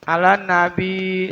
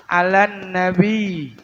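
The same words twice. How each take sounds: First: 'Alan nabi with a short single l and n; wrong single l. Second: 'Alan nabi slow with the n held double; doubled n. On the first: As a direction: say 'Alan nabi without doubling. ("'Alan nabi" tanpa tasydid) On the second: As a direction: hold the n between 'Alan and nabi. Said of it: "Karena ada huruf tasdid". ("'Alan nabi" dengan nun ditekan) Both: Shown as a demonstration.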